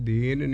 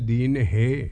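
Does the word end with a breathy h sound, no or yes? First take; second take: no; yes. First: The word ends plainly, with no h sound. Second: The word ends with a slight breathy h sound. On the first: The speaker calls it wrong. "दीन नहीं है" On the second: The speaker calls it right. "थोड़ा जिहा हाहा बुलाउणा"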